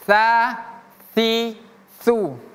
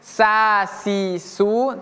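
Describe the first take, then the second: First: The consonant is a lisped th sound. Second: The consonant is a plain hissed s sound. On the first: The speaker calls it right. "tapi sa si su" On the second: The speaker calls it wrong.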